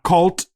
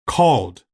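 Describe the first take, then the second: First: The word ends with a T sound. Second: The word ends with a hard D sound. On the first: The speaker calls it wrong. "not cult with a T" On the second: The speaker calls it right. "we go with the D sound"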